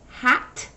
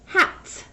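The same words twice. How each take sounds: First: Hat said loud and clear, ending t crisp; clear model word. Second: Hats said loud, stretching the final s; s ending. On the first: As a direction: say Hat firmly, landing the t. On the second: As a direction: push the hiss on hats. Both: Shown as a demonstration. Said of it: "I want you to say the ending sound".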